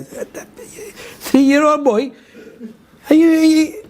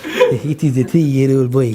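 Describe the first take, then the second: First: High-pitched, drawn-out disbelief; incredulous. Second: Lightly voiced ambassador, low and slow; Iranian ambassador. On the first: Acted. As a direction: stretch it out high, as if you can't believe it. Acts disbelief at ambassador's claim. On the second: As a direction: play the ambassador stating it slowly and low. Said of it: "Iranian ambassador called and said".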